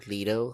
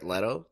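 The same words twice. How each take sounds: First: "Leto" with a long ee in the first syllable; first syllable of "Leto" rhymes with see. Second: "Leto" with a short e, as in let; first syllable of "Leto" rhymes with bet. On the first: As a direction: say "Leto" as LEE-doh. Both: Shown as a demonstration. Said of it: "however you wanna say it".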